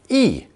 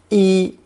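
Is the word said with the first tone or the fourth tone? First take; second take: fourth tone; first tone. First: The word is said with the fourth tone. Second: The word is said with the first tone. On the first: It is the verb meaning to clothe. "rarely fourth tone" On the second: It is the noun meaning clothing. "pronounced first tone"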